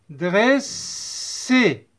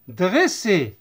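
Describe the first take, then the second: First: "Dresser" split into dress... er, with a long S; teacher's stretched-out model of "Dresser"; syllable-by-syllable. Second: Said in the usual way. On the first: Shown as a demonstration. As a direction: draw out both halves of "Dresser". Teacher sounds out syllables slowly.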